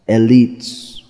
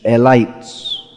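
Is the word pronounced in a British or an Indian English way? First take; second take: British; Indian. First: The word has a British English pronunciation. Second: The word has an Indian English pronunciation. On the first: "But in British English, and probably in American English also, it's pronounced" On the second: "or as it's pronounced in Indian English"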